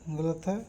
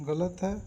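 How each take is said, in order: Both takes have the same delivery.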